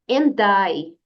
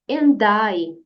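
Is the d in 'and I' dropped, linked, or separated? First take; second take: linked; linked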